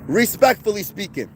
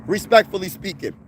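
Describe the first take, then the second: No difference in how they are said.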